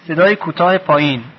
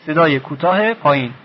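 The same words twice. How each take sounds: The two takes are said the same way.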